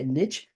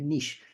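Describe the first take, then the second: First: It is said the North American way. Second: It is said the European, French-like way. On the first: "People in North America say niche" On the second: "people over here in Europe say niche, because it's a French word"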